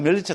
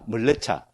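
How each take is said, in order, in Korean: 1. myeol-lyeo-cha로 발음하며, 한국식 읽기입니다. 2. meol-le-cha로 발음하며, 산스크리트 형태입니다. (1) "멀레차, 멸려차 똑같죠" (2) "산스크리트 보면 멀레차라고 합니다"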